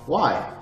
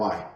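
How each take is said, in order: First: It is said warmly, with a smile. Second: It is said flatly, without a smile.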